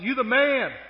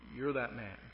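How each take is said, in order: First: It is cheered as enthusiastic praise. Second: It is said as a grave accusation.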